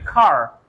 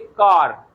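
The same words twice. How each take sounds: First: It is said the American way with a throaty r. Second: It has an Indian r, made at the palate.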